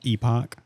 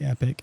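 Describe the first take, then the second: First: The word sounds like 'ee-pock'. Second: The word sounds like 'epic'. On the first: This is how other people say the name. The speaker calls it wrong. "People are like Epoch" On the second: This is how the owner says the name. The speaker calls it right. "it's actually Epic"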